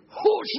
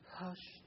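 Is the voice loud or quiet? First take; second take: loud; quiet. First: It is said loudly in a harsh voice. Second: It is said softly in a quiet voice. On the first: The speaker is not comforting at all. The speaker calls it wrong. "That's Metallica. That's not comforting" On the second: The speaker wants to calm and comfort. The speaker calls it right. "she speaks or she sings in a quiet voice"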